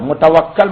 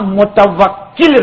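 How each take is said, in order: First: The vowel after the doubled k is a. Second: The vowel after the doubled k is i. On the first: The speaker calls it wrong. "मुतवक्कल मत कीजिएगा" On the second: The speaker calls it right. "मैंने आपका नाम मुतवक्किल रखा है"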